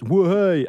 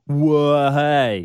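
First: The phrase is said short and quick. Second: The phrase is drawn out long.

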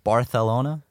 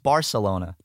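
First: It is said with a Spanish pronunciation. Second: It is said with an English pronunciation. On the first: The speaker calls it wrong. "Why do they say it like that? Barcelona? Come on, Spaniards" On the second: The speaker calls it right. "it's Barcelona"

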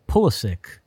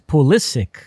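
First: The stress is on the first syllable. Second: The stress is on the second syllable. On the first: The speaker calls it wrong. "I say Pulisic" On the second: The speaker calls it right. "the emphasis should be it's Pulisic"

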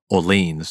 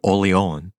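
First: It is said the American way. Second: It is said the non-American way.

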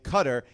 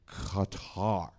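First: The name is said in a plain, casual way. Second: The name is said in a careful, showy way.

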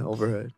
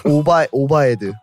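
First: It is said like the English word overhead. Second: It is said with Korean sounds, like obaedu. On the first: "she said overhead, right?" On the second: "but they say it differently. They go like Obaedu"

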